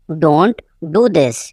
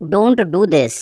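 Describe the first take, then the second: First: "don't", a clear pause, then "do this"; slow teaching take, split after "don't"; slow repeat. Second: Said in the usual way. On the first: Shown as a demonstration. Teacher repeating for learners, slow and divided.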